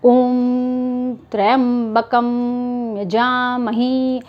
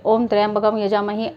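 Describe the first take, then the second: First: The phrase is said very slowly. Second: The phrase is said quickly. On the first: The speaker calls it right. "इस तरह से आपको धीरे धीरे, बिल्कुल धीरे धीरे बोलना है" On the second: The speaker calls it wrong. "इस तरह से नहीं"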